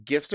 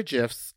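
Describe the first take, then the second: First: "gifs" with a hard G, as in gift. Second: "gifs" with a soft G, like "jifs". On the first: Host offering both pronunciations, "gifs" with hard G. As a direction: say "gifs" starting like "give". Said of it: "you can say it either way". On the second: Host offering both pronunciations, "gifs" with soft G. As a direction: say "gifs" starting like "jam". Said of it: "I'm gonna say gifs". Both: Shown as a demonstration.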